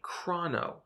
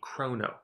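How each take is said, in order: First: The word uses a non-Greek pronunciation. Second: The word uses the Greek pronunciation. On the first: The speaker calls it wrong. "You may hear some developers say chrono, however, we believe this is inaccurate" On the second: The speaker calls it right. "use the Greek pronunciation"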